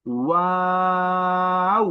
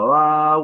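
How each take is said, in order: First: ওয়াও with a rounded w and very long, high, steady aa; rounded lips, not closed. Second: ওয়াও said loud and loosely, shorter than the model; common mispronunciation. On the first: Teacher shows the correct letter, lips rounded. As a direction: hold ওয়াও evenly, gliding to oo without closing the lips. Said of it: "ঠোঁট গোল করে". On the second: Teacher mimics how many say it, mispronounced. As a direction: blurt ওয়াও as learners do, without careful rounding. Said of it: "এক একজনের এক এক রকম উচ্চারণ". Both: Shown as a demonstration.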